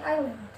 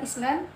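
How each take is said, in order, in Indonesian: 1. Bunyi S tidak diucapkan. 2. Bunyi S diucapkan.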